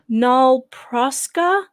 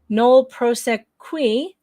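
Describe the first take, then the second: First: The phrase ends with a 'ska' sound. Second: The phrase ends with a 'kwee' sound. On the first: This follows the spoken audio. "but when they say it, it's nol proska" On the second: This follows the written form. "it says K W I at the end. That's qui"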